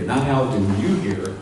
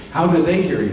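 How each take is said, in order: First: "you" pushed as the contrasted word, falling; stress on you. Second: "they" lifted and pushed as the key word; stress on they. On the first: Coach setting up the contrast, stressing "you". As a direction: lean on "you" to show the wrong focus. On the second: Coach correcting the crowd's focus, stressing "they". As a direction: lean on "they" to contrast with "you". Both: Shown as a demonstration.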